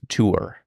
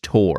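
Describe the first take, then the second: First: The word is stretched into two syllables. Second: The word is said as one short syllable. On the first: "you're doing a bit of a of a double syllable" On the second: "It's just tour, like T O R"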